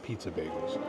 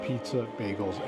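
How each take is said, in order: First: The two words run together without a pause. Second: A short pause separates the two words. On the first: It names one food, a bagel topped like pizza. "not pizza bagels" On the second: It names two separate foods. "but pizza, bagels"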